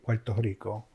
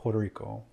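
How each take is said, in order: First: The name is said with a Spanish pronunciation. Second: The name is said with an English pronunciation. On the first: The speaker calls it right. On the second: The speaker calls it wrong.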